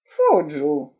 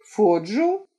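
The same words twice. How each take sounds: First: Фоджу. low and falling, final; flat statement. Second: Фоджу? asked with a rising tune; questioning rise. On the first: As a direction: state Фоджу. flatly, settling it. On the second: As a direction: lift the end of Фоджу? in disbelief. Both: Acted.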